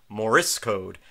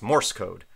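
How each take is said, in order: First: An extra vowel is added in Morse. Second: No extra vowel is added in Morse. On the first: The speaker calls it wrong. "I kept putting an extra vowel in there. I kept on saying" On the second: The speaker calls it right. "but it's"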